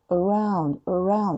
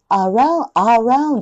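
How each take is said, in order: First: "around" with a quick schwa, softer; correct around. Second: "around" with a clear full a; wrong around. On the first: Teacher showing the correct soft around. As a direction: slur the first a of "around". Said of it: "曖昧母音なんですね". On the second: Teacher showing the mistaken around. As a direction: open the first a of "around". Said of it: "aroundじゃなくて". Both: Shown as a demonstration.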